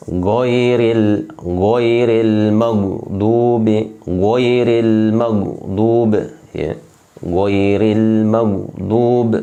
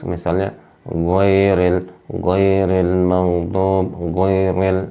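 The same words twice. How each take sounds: First: Goiril maghdub drawn out slowly, back of the tongue raised, full and firm; correct goiril. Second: Goiril maghdub drawn out slowly with a slack, lazy mouth; wrong slack goiril. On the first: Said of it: "Nah, itu dia". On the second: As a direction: say goiril maghdub slowly with loose lips and a limp tongue. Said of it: "Nah, itu tidak boleh". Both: Shown as a demonstration.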